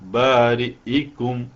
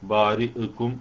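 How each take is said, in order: First: The glottal stop and its i vowel are clear. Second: The glottal stop and its i vowel are blurred. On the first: The speaker calls it right. "ഹംസ കൃത്യമായി ഉച്ചരിച്ചുകൊണ്ട് കസറോട് കൂടി ഉച്ചരിച്ചുകൊണ്ട് ഓതണം" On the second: The speaker calls it wrong. "പല ആളുകളും ഓതുമ്പോൾ ഇവിടെ ഓതുമ്പോൾ തെറ്റിപ്പോകുന്നത് കാണാറുണ്ട്"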